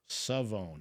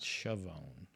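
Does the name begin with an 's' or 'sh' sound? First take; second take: s; sh. First: The name begins with a plain s sound. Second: The name begins with an sh sound. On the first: The speaker calls it right. "So I guess the H is silent" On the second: The speaker calls it wrong. "not Chavon"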